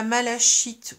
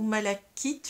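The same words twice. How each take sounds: First: "malachite" pronounced with the French ch sound, unsure; unsure pronunciation. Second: "malachite" with a hard k, like "malakite"; "malachite" pronounced with a k sound, offered as the other option; alternative pronunciation. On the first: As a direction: say "malachite" as ma-la-SHEET. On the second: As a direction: say "malachite" as ma-la-KEET. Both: Shown as a demonstration. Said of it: "je ne sais pas comment ça se prononce".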